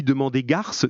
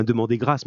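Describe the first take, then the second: First: "garce" with the r after the vowel; typo read out. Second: "grâce" with the r right after the g; corrected wording. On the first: Retold or imitated. Teacher reads a pupil's mistyped answer aloud, mispronounced as "garce". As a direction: say "garce", r moved behind the a. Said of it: "c'est pas tout à fait pareil". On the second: Shown as a demonstration. Teacher gives the pupil's corrected answer, pronounced properly as "grâce". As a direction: say "grâce", gr together before the vowel. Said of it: "mais tu as corrigé toi-même".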